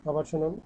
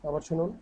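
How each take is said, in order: The two takes are said the same way.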